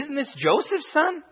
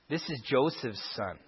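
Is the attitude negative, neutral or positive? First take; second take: positive; negative. First: It is said with a positive, admiring attitude. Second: It is said with a negative, scornful attitude.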